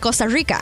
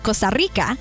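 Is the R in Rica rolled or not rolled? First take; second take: not rolled; rolled. First: The R in Rica is not rolled. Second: The R in Rica is rolled. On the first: This is how Costa Ricans say it. "we do not roll our R's. We say Costa Rica" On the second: This is how Costa Ricans do not say it. "not Costa Rica"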